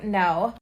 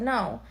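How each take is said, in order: First: The rude refusal she didn't give; blunt no. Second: Soft, polite refusal; a gentle, apologetic "No.". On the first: Shown as a demonstration. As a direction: shut him down hard with "No.". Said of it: "It's not like I'm, I'm not sitting there like". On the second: Retold or imitated. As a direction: decline kindly, no edge. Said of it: "I said it politely".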